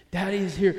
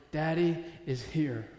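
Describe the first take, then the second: First: "Daddy is here" firmer and louder; emphatic repeat. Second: Slow, unforced comfort; gentle reassurance. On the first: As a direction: declare "Daddy is here" in one firm run. Line repeated emphatically to congregation. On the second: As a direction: let it settle slowly, with pauses. God reminding David, first take. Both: Acted.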